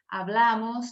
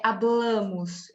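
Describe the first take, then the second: First: HABLAMOS with a wide-open stressed A. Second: HABLAMOS with a closed, nasal stressed A; slow "hablamos", its middle A nasalised as in Portuguese. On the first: Teacher modelling what she always says, open A in "hablamos". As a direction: say "hablamos" the Spanish way, no nasal A. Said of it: "o A sempre será aberto". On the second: Teacher showing what she never says, nasal A in "hablamos". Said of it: "Eu nunca vou dizer". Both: Shown as a demonstration.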